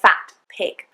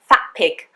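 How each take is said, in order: First: The T of 'fat' is clearly pronounced. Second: The T of 'fat' sounds like a P. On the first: The speaker calls it wrong. "I don't say" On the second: The speaker calls it right. "What I'm actually saying is"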